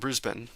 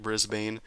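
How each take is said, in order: First: It is said the way locals pronounce it. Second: It is said as an American reads the spelling. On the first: The speaker calls it right. "That's how you pronounce it, right?" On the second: The speaker calls it wrong. "in American, it looks like Brisbane"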